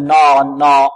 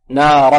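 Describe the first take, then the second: First: "نارا" with a dark, backed "naw"; "نارا" as a faulty full-mouthed "naw-ran"; heavy nun. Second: "نارا" with a light, open "naa"; "نارا", clear front "naa" before a heavy ra; thin nun. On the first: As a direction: thicken the n and alif of "نارا". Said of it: "نفخم النون". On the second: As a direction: keep the n and alif of "نارا" thin. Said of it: "لا، النون مرقة". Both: Shown as a demonstration.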